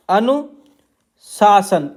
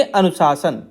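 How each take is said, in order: First: अनुशासन stretched very slowly, syllable by syllable; अनुशासन said slowly, each syllable held; drawn-out dictation. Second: Said in the usual way. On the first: Shown as a demonstration. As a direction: spell out अनुशासन slowly while writing it. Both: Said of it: "तो इसे आप पढ़ेंगे अनुशासन".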